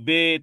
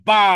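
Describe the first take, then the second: First: The letter name ends in an 'e' vowel. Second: The letter name ends in an 'a' vowel. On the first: This is the old way people learned it as children. The speaker calls it wrong. "ছোটকালে আপনারা শিখেছেন" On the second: This is how it must be read now. The speaker calls it right. "এখন পড়তে হয়"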